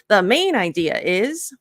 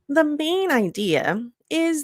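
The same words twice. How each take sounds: First: The phrase is said at a normal pace. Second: The phrase is slowed down for emphasis. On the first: The speaker calls it wrong. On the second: The speaker calls it right.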